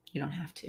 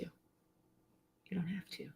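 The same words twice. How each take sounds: First: Said in the usual way. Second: Slow, soft reassuring whisper. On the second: Real, not acted. Reassuring viewers they need no anger, whispered slowly. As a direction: breathe it gently, almost no voice.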